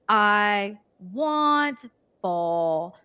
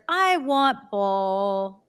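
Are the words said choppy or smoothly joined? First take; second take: choppy; smoothly joined. First: Each word is said separately, broken apart. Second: The words flow together as one connected phrase. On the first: The speaker calls it wrong. "they try to break down the step" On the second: The speaker calls it right. "giving the whole sentence and like actually fully saying it and extending the sound"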